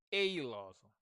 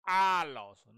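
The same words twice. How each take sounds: First: "Aloso" begun like the letter A; wrong first vowel. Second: "Aloso" with a loud, open ah; correct first vowel. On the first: Teacher rejecting the wrong answer, ay vowel. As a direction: say "Aloso" as ay-loso. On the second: Teacher answering their own question, emphatic ah vowel. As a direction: hit "Aloso" as ah-loso. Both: Shown as a demonstration.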